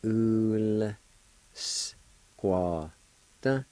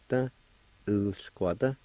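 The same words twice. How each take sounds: First: UL, SQUAW, T separated by clear gaps; syllable-by-syllable pronunciation. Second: "ul, squat" joined into one connected word; whole-word pronunciation. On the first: Teacher showing learners the L with U sound, syllable by syllable. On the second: Teacher giving learners the finished word, said connected. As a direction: run "ul, squat" together. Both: Shown as a demonstration. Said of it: "pronounce the L sound with the U like this".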